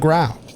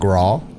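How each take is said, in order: First: The vowel sounds like the one in cow. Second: The vowel sounds like the one in saw. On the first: The speaker calls it right. "It is the Growl. That's how the English language works" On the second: The speaker calls it wrong. "I know a lot of people call it the Graw"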